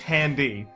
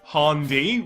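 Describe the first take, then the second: First: The first vowel sounds like the one in 'hat'. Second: The first vowel sounds like the one in 'hot'. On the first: "You think it's handy?" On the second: "Ryan pronounces it like a Eastern European vagrant"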